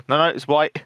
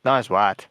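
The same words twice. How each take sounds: First: Imitating a South African; South African accent. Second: Dropping into a South African vowel; South African accent. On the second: Retold or imitated. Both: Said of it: "It's like".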